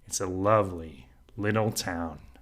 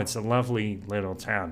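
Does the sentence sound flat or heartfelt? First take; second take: heartfelt; flat. First: It is said with depth and warm feeling. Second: It is said flatly, without much feeling. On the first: "with presence, with depth, with gravity" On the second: "It sounds a little flat"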